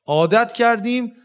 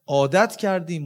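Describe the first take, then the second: First: عادت کردیم repeated higher and louder, کردیم stressed; emphatic repeat. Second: Said in the usual way. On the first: Shown as a demonstration. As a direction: hammer home کردیم on the repeat.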